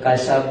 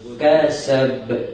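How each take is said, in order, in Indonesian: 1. b di akhir berhenti rata tanpa memantul. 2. b di akhir berakhir dengan pantulan bergema. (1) "kasab salah" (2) "jadi ber eh"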